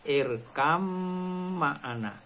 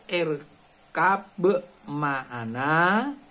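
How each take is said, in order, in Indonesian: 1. Bunyi 'b' berubah menjadi bunyi 'm'. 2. Bunyi 'b' ada sebelum ma'ana. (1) "harus dibaca idhom. Bacanya irkam ma'ana" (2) "Tertulis irkab ma'ana"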